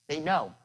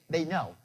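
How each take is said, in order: The two takes are said the same way.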